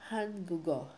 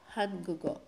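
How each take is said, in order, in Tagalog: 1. Ang huling tunog ay nagiging g at napupunta sa o. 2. Ang huling tunog ay nagiging g at napupunta sa o.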